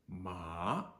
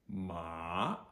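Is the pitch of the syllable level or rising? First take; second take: rising; rising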